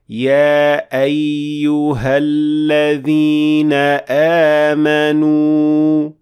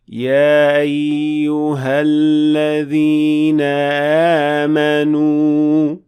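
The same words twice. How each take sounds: First: The glottal stop is a crisp, full closure. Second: The glottal stop is weak and almost inaudible. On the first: The speaker calls it right. "that cutting sound of hamza" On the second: The speaker calls it wrong. "makes the hamza almost not audible at all"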